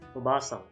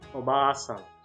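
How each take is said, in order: First: The vowel after 'b' is kept short. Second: The vowel after 'b' is held long. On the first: The word means auntie. The speaker calls it wrong. "You didn't prolong the vowel sound of the character" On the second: The word means grandmother. The speaker calls it right. "you want to say obasang, obasang, which means grandmother"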